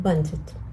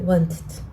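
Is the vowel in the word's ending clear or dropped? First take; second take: dropped; dropped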